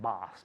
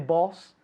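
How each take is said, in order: First: It has an American open 'ah' vowel. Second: It has a British rounded 'o' vowel. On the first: "in Estados Unidos dicen boss" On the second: "I say boss"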